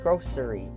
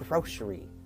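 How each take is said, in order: First: The middle consonant sounds like s. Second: The middle consonant sounds like sh. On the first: "Some people pronounce it grocery" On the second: "is pronounced like there's a sh in there"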